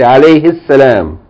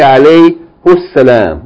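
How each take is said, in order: First: The pronoun is said with an 'i' vowel. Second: The pronoun is said with a 'u' vowel. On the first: The speaker calls it right. "You say alayhi salam" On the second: The speaker calls it wrong. "You don't say alayhu salam"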